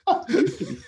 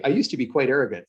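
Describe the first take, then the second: First: High, laughing mockery of a friend; mocking laugh. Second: Said in the usual way. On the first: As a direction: tease him through a laugh. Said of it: "Some of them will go". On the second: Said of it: "when I say".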